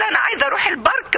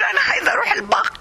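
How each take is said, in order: First: The last word has a normal r sound. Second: The r in the last word sounds like gh. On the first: The speaker calls it right. "بدل ما تقول" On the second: The speaker calls it wrong. "ما بتعرفش تقول حرف الر بتقول الره غ"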